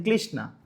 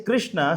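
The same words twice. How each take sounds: First: "Krishna" said with L for R, as "Klishna"; Chinese R-less pronunciation. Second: Said in the usual way. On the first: Shown as a demonstration. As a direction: turn the R of "Krishna" into an L. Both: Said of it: "they have no Ra in their language".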